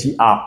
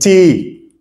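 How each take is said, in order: First: Two separate vowel sounds are pronounced. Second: Only one vowel sound is pronounced. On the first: The speaker calls it wrong. "on ne dit pas T A" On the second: The speaker calls it right. "We say T"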